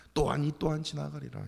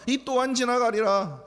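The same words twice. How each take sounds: First: Resigned sigh. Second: Slow, louder, mocking drawl of the saying; mock the slogan with scorn; mocking quote. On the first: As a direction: shrug it off with a sigh. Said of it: "이러지 말라고요". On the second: Preacher challenging the congregation, mocking the saying. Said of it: "다윗이 그랬습니까?". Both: Shown as a demonstration.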